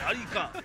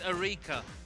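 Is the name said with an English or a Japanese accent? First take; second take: Japanese; English. First: The name is said with Japanese pronunciation. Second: The name is said with English pronunciation. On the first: "you have to s- pronounce a Japanese name. It's like" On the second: "doesn't sound right at all"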